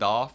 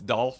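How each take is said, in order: First: The L sound in the name is left out. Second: The L sound in the name is pronounced. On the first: The speaker calls it wrong. "not Dolph" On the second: The speaker calls it right. "With an L"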